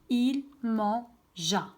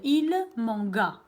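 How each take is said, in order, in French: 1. Le g est un son zh doux. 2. Le g est un g dur. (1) "Je dois rajouter le E pour prononcer le son ja" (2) "c'est faux bien sûr"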